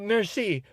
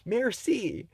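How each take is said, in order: First: It has only a mild American accent. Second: It has a heavy, exaggerated American accent.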